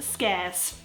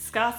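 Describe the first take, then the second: First: It does not sound like the plural of scar. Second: It sounds like the plural of scar. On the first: The speaker calls it right. "it's pronounced scarce" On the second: The speaker calls it wrong. "it's not pronounced scarce"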